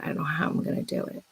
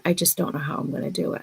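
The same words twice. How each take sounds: First: Whispered, falling away fast; hushed despairing whisper. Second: Said in the usual way. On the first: Retold or imitated. Recalling daily money worries, now a fast despairing whisper. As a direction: breathe it out in quiet despair. Retold daily worry, repeated.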